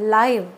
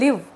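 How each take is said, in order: First: The vowel sounds like the one in 'five'. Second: The vowel sounds like the one in 'give'. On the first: Broadcast as it happens. "ఇంకొకటి లైవ్" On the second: To reside or to lead a life. "ఒకటి లివ్"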